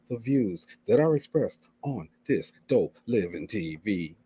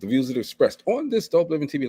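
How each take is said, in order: First: The phrase is spoken slowly. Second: The phrase is spoken quickly. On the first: "I can say it slow" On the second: "I try to say it so fast"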